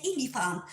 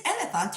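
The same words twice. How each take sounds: First: "elephant" said as "ee-lee-fant"; mock E pronunciation. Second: "elephant" with short open e; normal "elephant". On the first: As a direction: start "elephant" with a long ee. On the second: Retold or imitated. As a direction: say "elephant" starting with an eh sound. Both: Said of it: "You are not saying elephant".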